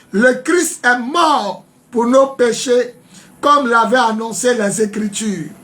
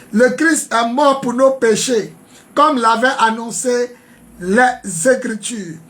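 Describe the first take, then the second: Both takes have the same delivery.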